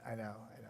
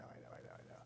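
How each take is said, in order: First: Said in the usual way. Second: Trailing off into a whisper; soft whispered resignation. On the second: Real, not acted. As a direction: breathe the words, no voice. Fading repeated I know.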